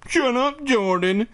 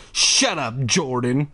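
First: Very high mimicking voice; annoying pitched-up copycat; mocking repetition. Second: Said in the usual way. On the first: A narrator's reading. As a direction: parrot a sister in a squeaky whine. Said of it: "Jordan repeated". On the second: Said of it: "Ashley cried".

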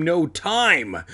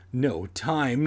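First: Louder, higher emphatic repeat; rising, insistent outburst; declared urgently. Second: Said in the usual way. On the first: A narrator's reading. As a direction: declare it, punching TIME high. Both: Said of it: "I declared".

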